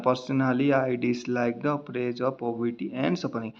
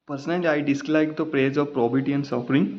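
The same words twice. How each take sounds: First: Very slow, dragging reading shown as the wrong way; mock-sluggish plodding read; too-slow reading. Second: Slow word-by-word reading; halting reading of the passage; slow reading aloud. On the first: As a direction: drag it out word by word to show what not to do. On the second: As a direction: read it slowly, dwelling on dislike. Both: Shown as a demonstration. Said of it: "तो ये ऐसे नहीं पढ़ना है".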